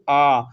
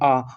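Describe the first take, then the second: First: The vowel is drawn out longer. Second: The vowel is said briefly. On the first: "थोड़ा लंबा खींचिए" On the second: "छोट आ बोले"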